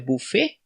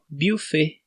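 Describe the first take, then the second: First: The first vowel sounds like i. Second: The first vowel is a rounded French u. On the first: "Ou é I" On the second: "no francês seria iu"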